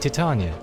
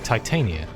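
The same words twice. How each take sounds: First: The first part does not sound like Titan. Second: The first part sounds like the word Titan. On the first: The speaker calls it right. "But I think it might actually be Titania" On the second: The speaker calls it wrong. "I'd say tit Titan. So I'd say Titania"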